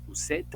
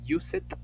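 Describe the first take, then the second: First: The word ends with a clear d sound. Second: The word ends with an added extra syllable. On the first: "no decimos used" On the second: "No decimos use it"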